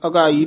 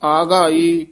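First: The first vowel is short. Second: The first vowel is long. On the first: The speaker calls it wrong. "ਨਹੀਂ ਕਹਿਣਾ" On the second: The speaker calls it right. "ਕੰਨਾ ਲਾ ਕੇ ਦੋਵੇਂ ਕੰਨੇ ਬੋਲਣੇ ਹਨ"

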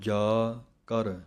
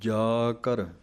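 First: The two words are split by a long gap. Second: The two words are split by a slight gap. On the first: The speaker calls it wrong. "ਥੋੜ੍ਹਾ ਜਿਹਾ ਜ਼ਿਆਦਾ ਵੀ ਵੱਖਰਾ ਨਹੀਂ ਕਰ ਦੇਣਾ ਕਿ ਪਾਠ ਜਾ ਕਰ ਇਸ ਤਰ੍ਹਾਂ ਨਹੀਂ" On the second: The speaker calls it right. "ਜਾ ਕਰ ਇਸ ਤਰ੍ਹਾਂ ਪਾਠ ਬੋਲਣਾ ਹੈ"

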